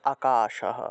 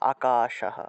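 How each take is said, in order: First: The final h is pronounced fully. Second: The same.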